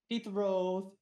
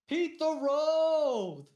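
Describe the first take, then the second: First: It is said flatly, with little emotion. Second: It is said with lots of emotion.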